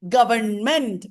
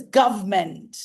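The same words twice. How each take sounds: First: "Government" in three full syllables, "guv-ern-ment"; spelling pronunciation. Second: "government" as two syllables, "guv-ment"; silent middle syllable. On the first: Teacher showing the written form, every syllable sounded. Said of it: "we write". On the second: Teacher giving the pronunciation, middle syllable dropped. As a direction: leave out the "ern" in "government". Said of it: "the pronunciation is government". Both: Shown as a demonstration.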